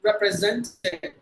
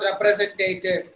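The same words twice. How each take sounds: First: The A before -tive is a short ah. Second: The A before -tive is a long sound. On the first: The speaker calls it right. "it should be the short sound" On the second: The speaker calls it wrong. "not representative"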